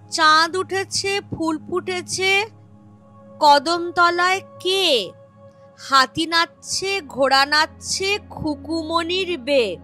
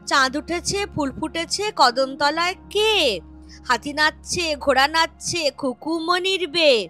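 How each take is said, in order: First: The rhyme is recited at a slower pace. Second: The rhyme is recited at a faster pace.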